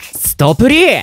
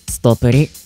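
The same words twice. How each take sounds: First: It is said in a lively, energetic voice. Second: It is said in a plain, ordinary voice. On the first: "元気よく。" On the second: "普通に。"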